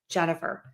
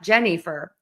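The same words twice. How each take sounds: First: The middle vowel is a short, relaxed 'uh'. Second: The middle vowel is a full, clear 'eh'. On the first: The speaker calls it right. "Super short, super quick, super relaxed mouth" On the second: The speaker calls it wrong. "call me Jennifer with an E in the middle. It's not Jennifer"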